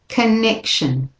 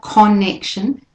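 First: The first vowel is a short weak schwa. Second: The first vowel is a full clear vowel. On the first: The speaker calls it right. "a short a" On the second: The speaker calls it wrong. "So it's not connection"

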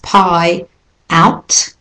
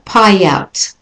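First: The two words are said separately. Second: The two words are linked together.

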